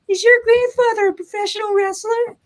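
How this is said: It is said in a high-pitched child's voice.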